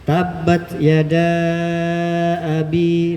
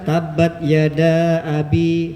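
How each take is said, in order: First: The vowel before abi is held very long. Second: The vowel before abi is held briefly. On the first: "berarti enam harokat" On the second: "berarti dia cuma dua harokat"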